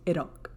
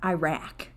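First: It is said Iraqi-style with a rolled R. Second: It is said with a plain English R.

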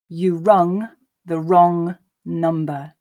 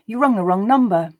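First: The sentence is spoken slowly. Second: The sentence is spoken at a natural pace. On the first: "the first time slowly for you to grasp the meaning" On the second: "the second and third time at that more natural pace"

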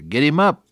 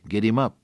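First: It is said a little louder. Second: It is said softly.

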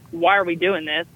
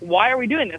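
First: It sounds defiant and challenging. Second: It sounds genuinely curious and sincere.

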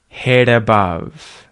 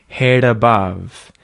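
The two takes are said the same way.

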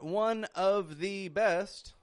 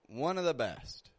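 First: The word 'of' is fully pronounced with V. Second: The word 'of' is reduced to a weak 'uh'. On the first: The speaker calls it wrong. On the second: The speaker calls it right. "Of followed by a consonant sound"

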